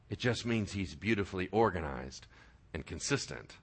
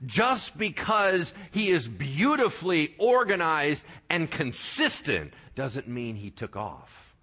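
First: Hushed echo. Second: Said in the usual way. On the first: Shown as a demonstration. Preacher echoing his point to the congregation, in a hushed murmur. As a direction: drop way down softer and lower, almost to a murmur. Same phrase echoed much softer.

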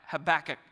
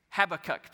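First: "Habakkuk" stumbled out as huh-BACK-uk; fumbled pronunciation of Habakkuk. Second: "Habakkuk" as HAB-uh-kuk, hit the opening syllable; stress on first syllable. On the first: Preacher attempting the rival version and missing, "Habakkuk" stressed on BACK. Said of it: "I can't even say it". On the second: Preacher naming the rival camp, "Habakkuk" stressed on HAB. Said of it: "The emphasis on the wrong syllable". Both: Shown as a demonstration.

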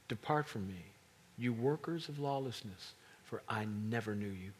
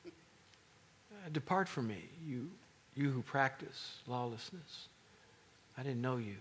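First: Said in the usual way. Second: Unimpressed. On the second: Retold or imitated. Jesus dismissing the miracle workers, mildly unimpressed. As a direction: brush them off like it's nothing.

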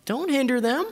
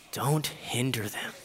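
First: High-pitched annoyed order; mildly indignant, pitched up; indignant command. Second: Soft, slow and low; tender, unhurried plea; gentle instruction. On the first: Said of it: "it says that he was indignant". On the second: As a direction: urge them quietly, taking time. Jesus gently welcoming the children. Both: Acted.

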